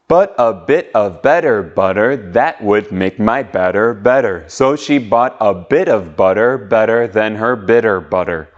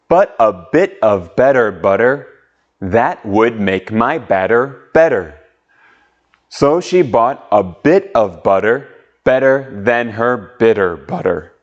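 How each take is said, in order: First: It is said faster. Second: It is said slowly.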